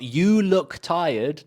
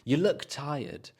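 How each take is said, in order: First: The word 'you' has its full, strong vowel. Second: The word 'you' is reduced to a weak schwa. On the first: The speaker calls it wrong. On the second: The speaker calls it right.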